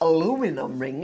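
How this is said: It is pronounced the American way, four syllables.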